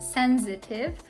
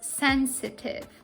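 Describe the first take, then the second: First: The middle consonant is a z sound. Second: The middle consonant is an s sound. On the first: The speaker calls it wrong. "not pronounced with z, so you shouldn't pronounce it as sensitive" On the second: The speaker calls it right. "The correct pronunciation is sensitive"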